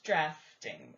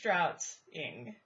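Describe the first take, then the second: First: The word is said with an f sound. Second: The word is said without an f sound. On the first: The speaker calls it right. "but it is drafting" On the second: The speaker calls it wrong. "I would think it's draughting"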